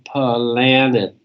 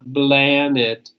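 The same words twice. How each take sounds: First: The word begins with a crisp P sound. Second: The word begins with a soft B-like sound. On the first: The speaker calls it right. "but p, p, p, planet" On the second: The speaker calls it wrong. "not planet"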